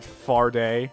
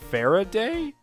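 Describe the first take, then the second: First: The name is shortened to two syllables. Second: The name is said with three full syllables. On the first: The speaker calls it wrong. "I've been calling it Farday, because it sounds better" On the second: The speaker calls it right. "It's actually, uh, Faraday?"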